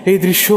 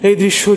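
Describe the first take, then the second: No difference in how they are said.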